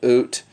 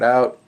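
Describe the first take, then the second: First: The vowel sounds like 'oo', a Canadian imitation. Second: The vowel is the speaker's ordinary 'ow' sound.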